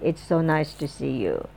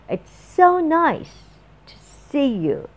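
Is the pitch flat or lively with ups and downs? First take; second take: flat; lively. First: The pitch stays flat with little variation. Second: The pitch rises and falls in an exaggerated way. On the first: The speaker calls it wrong. "不能这样子说" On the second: The speaker calls it right. "老外讲话是很有高低起伏的，有一点almost like exaggerate"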